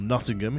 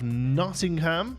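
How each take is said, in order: First: It is said in a local regional pronunciation. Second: It is said in a general, non-local pronunciation.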